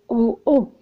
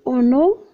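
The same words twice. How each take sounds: First: The n does not link to the vowel. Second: The n links into the following vowel. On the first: It means up high. The speaker calls it right. "On n'a pas de liaison" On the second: It sounds as if it is about water. The speaker calls it wrong. "Si on dit en haut, ça se vient que c'est de l'eau"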